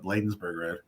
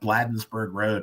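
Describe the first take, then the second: First: The name is said the way locals say it. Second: The name is said the way an outsider says it. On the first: The speaker is from the area. The speaker calls it right. "instead of Bladensburg Road" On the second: The reader is not from the area. The speaker calls it wrong. "it's just so striking when you hear Bladensburg Road"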